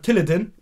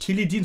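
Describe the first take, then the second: First: The word has an English-style pronunciation. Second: The word has a plain German pronunciation. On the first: This is how the rapper says it. "sondern Tilidin" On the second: This is the usual way to say it. "Der sagt nicht Tilidin"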